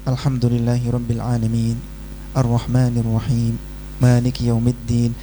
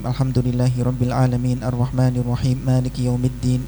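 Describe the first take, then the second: First: Verse endings are clipped, with a pause after each. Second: Verse endings are clipped silent without any pause. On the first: The speaker calls it right. "Kalau mau baca dengan mematikan huruf terakhir ya harus jeda" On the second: The speaker calls it wrong. "Ini salah jali. Bacanya terus tapi hurufnya dimatikan"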